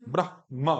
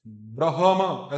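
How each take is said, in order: First: ब्रह्मा in two syllables, "brah-ma"; half h. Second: ब्रह्मा drawn out as "bra-ha-ma"; full ha, mispronounced. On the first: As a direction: only breathe the h of ब्रह्मा, then say ma. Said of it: "आधा". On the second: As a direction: give the h of ब्रह्मा its own vowel, slowly. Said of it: "हा भी पूरा नहीं बोलना". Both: Shown as a demonstration.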